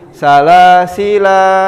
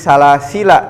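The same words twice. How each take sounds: First: The final vowel of the word is drawn out long. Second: The final vowel of the word is kept short. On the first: The speaker calls it wrong. "tidak menjadi salasila wa aglala" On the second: The speaker calls it right. "Jadi salasila"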